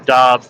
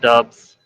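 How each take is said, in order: First: The vowel sounds like the one in 'cob'. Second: The vowel sounds like the one in 'cub'. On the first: The speaker calls it right. "It's Romeo Dobbs" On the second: The speaker calls it wrong. "not Dubs"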